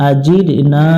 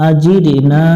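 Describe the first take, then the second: The two takes are said the same way.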